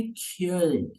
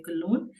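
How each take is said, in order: First: क्योल्न as one syllable with a य glide; German pronunciation. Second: कोलोन said the English way, 'kuh-lone'; English pronunciation. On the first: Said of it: "but उसका German word है". (क्योल्न, German उच्चारण में) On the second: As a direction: say कोलोन as two syllables with no umlaut. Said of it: "English में उसको बोलते हैं". (कोलोन, अंग्रेज़ी उच्चारण में) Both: Shown as a demonstration.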